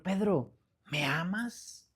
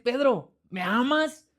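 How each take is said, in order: First: Soft, slow, tender question; imitating a tender Jesus, hushed; compassionate. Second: Higher, insistent question; imitating Jesus asking with compassion; repeated question. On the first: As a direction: ask it gently, with compassion. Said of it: "con compasión". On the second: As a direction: ask it once more, lifting the pitch. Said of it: "Y le vuelve a decir".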